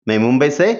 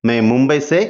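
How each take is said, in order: Both takes have the same delivery.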